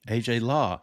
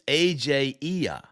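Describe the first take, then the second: First: The surname is said like the word law. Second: The surname is said as two vowels, ee-ah. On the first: The speaker calls it wrong. "the way I pronounced it" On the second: The speaker calls it right. "it's a capital I"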